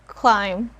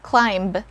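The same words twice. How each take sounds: First: The word ends without any b sound. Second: The word ends with an audible b sound. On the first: The speaker calls it right. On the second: The speaker calls it wrong.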